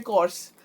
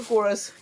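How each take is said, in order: First: कोर्स as one syllable, KORS; Dubai pronunciation. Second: कोरस as KOR-us; two-syllable pronunciation. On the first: Vlogger reporting what was heard in Dubai, one-syllable pronunciation. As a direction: say कोर्स with no vowel before the s. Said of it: "मैंने सुना था इसको बोलते हैं". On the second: Vlogger reporting another person's version, two-syllable pronunciation. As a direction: say कोरस with a short vowel before the s. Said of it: "किसी ने बोला इसको". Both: Retold or imitated.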